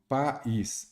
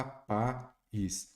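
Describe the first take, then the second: First: Said in the usual way. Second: "país" slowly, as pa, then ís; syllable by syllable. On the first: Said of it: "vamos lá, país". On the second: Shown as a demonstration. Teacher showing the hiatus to students, syllable by syllable. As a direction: split "país" into two separate beats. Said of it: "sem separar em sílabas".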